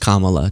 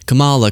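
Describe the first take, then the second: First: The name is pronounced in the standard way. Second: The name is pronounced in a deliberately altered way. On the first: The name is said as it is meant to be said. The speaker calls it right. "you know it's Kamala" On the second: The speaker refuses to say the name properly. The speaker calls it wrong. "when people would just say Kamala"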